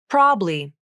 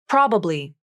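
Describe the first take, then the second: Both takes have the same delivery.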